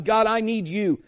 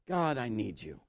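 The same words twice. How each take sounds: First: Higher, full-voiced plea to God; urgent prayer. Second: Low, very soft plea to God; hushed prayer. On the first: Preacher shows seeking is no formula, urgent raised prayer. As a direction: call out your need to God. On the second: Acted. Preacher models telling God he needs Him, hushed prayer. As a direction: pray it quietly, almost to yourself.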